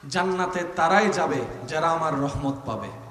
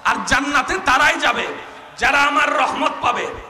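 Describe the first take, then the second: First: It is said at normal volume. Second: It is said more loudly.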